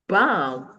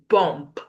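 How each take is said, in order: First: No b sound is heard at the end. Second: A b sound is heard at the end. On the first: The speaker calls it right. "You say bomb because the si- the B there is silent" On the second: The speaker calls it wrong. "You don't say"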